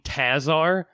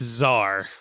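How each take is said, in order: First: It is said with two syllables, ta-zar. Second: It is said with one syllable, zar. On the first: The speaker calls it wrong. "I always called the game Tazar. Um, not how you say it" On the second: The speaker calls it right. "It's Czar"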